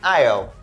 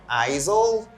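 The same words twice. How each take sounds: First: No S sound is pronounced in the middle. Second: An S sound is pronounced in the middle. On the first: The speaker calls it right. "Here the letter S is silent" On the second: The speaker calls it wrong. "We don't say aisle"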